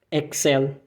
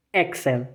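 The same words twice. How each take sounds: First: Excel with English X and rolled L; German Excel. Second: Excel, softer, German sounds. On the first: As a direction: model Excel softly. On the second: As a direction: repeat Excel quietly. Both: Shown as a demonstration. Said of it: "com o som do X do inglês".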